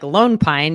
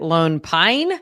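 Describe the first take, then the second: First: The stress is on Lone. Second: The stress is on Pine.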